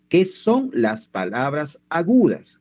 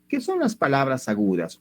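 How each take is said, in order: First: Slow, measured question with weight on "¿Qué son"; emphatic repeat. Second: Said in the usual way. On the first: Real, not acted. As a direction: spell out "¿Qué son las palabras agudas?" word by word, slowly. Repeats question slowly after warning "Ojo. ("¿Qué son las palabras agudas?" lento y recalcado)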